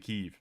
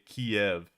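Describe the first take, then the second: First: The name is said the Ukrainian way, as Kyiv. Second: The name is said the Russian way, as Kiev. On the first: The speaker calls it right. "You say Kiev. That's the name" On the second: The speaker calls it wrong. "You don't say Kiev"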